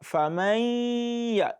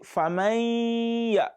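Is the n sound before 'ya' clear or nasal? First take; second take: nasal; nasal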